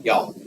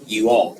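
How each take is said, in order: First: "Y'all" as one quick syllable, "yawl"; Southern y'all. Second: Said in the usual way. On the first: Shown as a demonstration. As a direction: run "Y'all" together into a single Southern syllable. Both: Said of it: "We invented".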